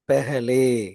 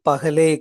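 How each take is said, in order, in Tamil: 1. முதல் உயிரெழுத்து 'e' ஒலி. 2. முதல் உயிரெழுத்து திறந்த 'a' ஒலி. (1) "இந்த பாவ பே அப்படின்னு படிக்கணும்" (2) "பகலே கிடையாது"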